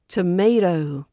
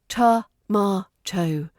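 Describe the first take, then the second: First: It is said with an American accent. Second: It is said with a British accent.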